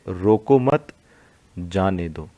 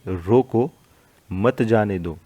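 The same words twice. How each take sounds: First: There is a pause after mat. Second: There is a pause after roko. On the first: Do not stop them, let them go. "दूसरे में क्या है, रोको मत, फिर coma लगा है" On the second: Stop them, do not let them go. "पहले में जो कोमा लगा है वो रोको के बाद है"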